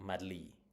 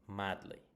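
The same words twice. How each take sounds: First: The stress is on the second syllable. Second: The stress is on the first syllable. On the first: The speaker calls it wrong. "It's not" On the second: The speaker calls it right. "It's on the first syllable"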